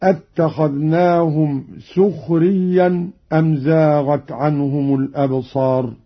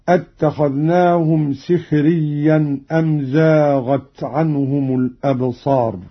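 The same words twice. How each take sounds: First: سخريا said "sukhriyyan"; damma on seen. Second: سخريا said "sikhriyyan"; kasra on seen. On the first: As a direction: put a u after the s in سخريا. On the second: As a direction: put an i after the s in سخريا. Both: Shown as a demonstration. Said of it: "بضم السين".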